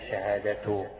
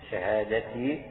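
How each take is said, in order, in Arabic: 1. تنتهي الكلمة بالحركة u. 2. تنتهي الكلمة بالحركة i. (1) "أو شهادته على استئناف كأنك تبدأ جملة جديدة" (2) "شهادتي تكون مكسورة"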